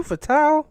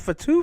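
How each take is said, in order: First: High, loud, questioning Fatu ending in "tau"; Fatu as fa-TOW. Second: High, questioning Fatu ending in "too". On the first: Unsure host testing the name, Fatu said fa-TOW. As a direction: try out Fatu rhyming its end with cow. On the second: Unsure host testing the name, Fatu said fa-TOO. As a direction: try out Fatu with a final oo. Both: Shown as a demonstration. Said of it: "How do they pronounce that?".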